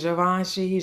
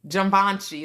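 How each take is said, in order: First: Givenchy said as "zhuh-VON-shee"; second pronunciation attempt. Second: Givenchy said as "zhum-VON-chee"; unsure pronunciation. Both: Real, not acted. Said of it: "Is that how you say it?".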